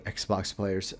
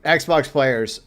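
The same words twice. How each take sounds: First: "Xbox players" dropped to a hushed, much softer plea; a quiet, half-sighed "Xbox players". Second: Said in the usual way. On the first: Real, not acted. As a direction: let "Xbox players" fall away almost under your breath.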